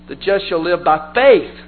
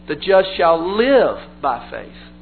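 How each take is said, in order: First: The stress falls on the word faith. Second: The stress falls on the word live. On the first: Salvation comes through faith, not through works of the law. "the emphasis in Galatians is on the word faith" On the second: Believers should live by faith, not by rules and rituals. "the emphasis is on the word live"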